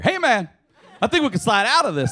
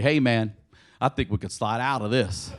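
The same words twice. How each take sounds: First: It is said with a sense of urgency. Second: It is said calmly, without urgency.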